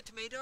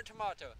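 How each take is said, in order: First: "tomato" with an AY in the middle; American pronunciation. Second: "tomato" with an AH in the middle; long open AH in "tomato"; British pronunciation. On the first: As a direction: say "tomato" as tuh-MAY-doh. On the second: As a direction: say "tomato" as tuh-MAH-toh. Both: Shown as a demonstration. Asks which pronunciation applies.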